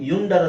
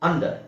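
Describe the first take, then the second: First: The word begins with a 'yu' sound. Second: The word begins with an 'uh' sound. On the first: The speaker calls it wrong. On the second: The speaker calls it right.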